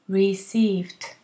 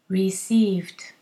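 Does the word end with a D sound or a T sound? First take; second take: T; T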